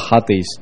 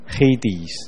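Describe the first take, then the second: First: The word is said in its Greek form. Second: The word is said in its English form. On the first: The speaker calls it wrong. "英文就不读作Hades" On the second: The speaker calls it right. "就读作Hades"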